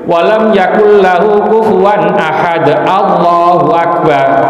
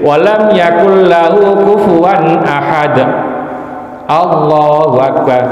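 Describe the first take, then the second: First: The phrases run together without a pause. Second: A short pause separates the two phrases. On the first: The takbir seems part of the verse. The speaker calls it wrong. "Ini seolah-olah Allahu Akbar ini ikut surat Al-Ikhlas" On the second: The takbir is separate from the verse. The speaker calls it right. "Jadi ada berhenti sedikit"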